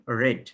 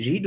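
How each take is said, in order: First: রেড with a short "e", like "red"; past-tense pronunciation. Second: রিড with a long "ee", like "reed"; present-tense pronunciation. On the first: Teacher shows students the past form's sound, short-e রেড. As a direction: say রেড to rhyme with "bed". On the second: Teacher shows students the sound not used in past, long-ee রিড. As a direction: say রিড to rhyme with "need". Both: Shown as a demonstration. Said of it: "সেখানে উচ্চারণ হয় রেড".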